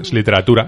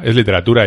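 First: Said in the usual way. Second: "literatura" said again much louder, hammered home; emphatic repeat. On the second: Shown as a demonstration. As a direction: land "literatura" hard the second time.

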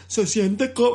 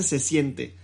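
First: Dubbed movie voice. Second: Said in the usual way. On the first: Retold or imitated. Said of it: "qué pinche película doblada siquiera dice". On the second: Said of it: "nadie en la puta vida dice".

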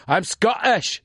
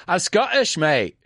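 First: Lightly Scottish, higher; I'm Scottish said as a Scot; light Scottish accent for learners to copy. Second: Odd pause before Scottish, high; Scottish with a strange little pause; light Scottish accent with a pause. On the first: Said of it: "Dilo conmigo". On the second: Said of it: "Hay que hacer esa pausa rara". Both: Shown as a demonstration.

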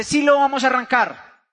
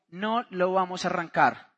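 First: Firm retort, stress on Sí; insistent retold wife. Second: Lower, softer retold refusal; low firm refusal. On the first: Wife contradicts husband about starting the project, insistent. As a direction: push back with an emphatic Sí. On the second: Husband answers his wife's insistence, low and firm. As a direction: dig in quietly on No.

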